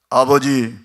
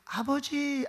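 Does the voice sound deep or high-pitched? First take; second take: deep; high. First: It is said in a deep, manly voice. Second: It is said in a high, feminine voice. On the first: The older, hairy brother is speaking. "목소리가 남성다워 아버지 막 이렇게 하는데" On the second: The younger, smooth brother is speaking. "여성스러웠을 거예요 목소리가"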